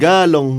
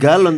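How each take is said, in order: First: The word ends with an ng sound. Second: The word ends with a plain n sound. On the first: "tapi beli galong" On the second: "nggak beli galon"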